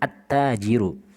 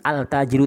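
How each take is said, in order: First: The L merges into a doubled T sound. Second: The L of the article is clearly pronounced. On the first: The speaker calls it right. "langsung ke ta ya, ditasydid" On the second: The speaker calls it wrong. "bukan al-tajiru tidak"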